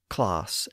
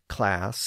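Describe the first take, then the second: First: The vowel is a lowered, open 'ah' sound. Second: The vowel is a short, flat 'a' sound. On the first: This is the modern southern English pronunciation. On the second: This is the earlier pronunciation.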